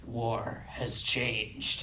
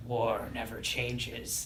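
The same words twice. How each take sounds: First: Very slow, low Snake growl. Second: Low, slow gruff Snake voice. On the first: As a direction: drag it out like Solid Snake. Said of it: "and then Snake goes". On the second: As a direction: growl it out like Solid Snake. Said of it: "in the Snake voice". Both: Retold or imitated.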